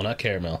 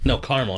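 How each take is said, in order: First: Caramel said as CARE-a-mel, three syllables. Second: Caramel said as CAR-mel, two syllables; caramel clipped to CAR-mel. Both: Shown as a demonstration. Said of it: "Two syllables, not three".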